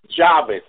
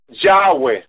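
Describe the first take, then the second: First: The middle consonant is a B sound. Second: The middle consonant is a W sound. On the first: The speaker calls it right. "He said with a B" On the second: The speaker calls it wrong. "We are not sinning when we say Yahweh"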